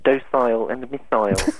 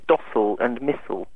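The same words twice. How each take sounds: First: The words are said with a British pronunciation. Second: The words are said with an American pronunciation. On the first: The speaker calls it right. "instead of docile and missile" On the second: The speaker calls it wrong. "the Americans who say docile and missile"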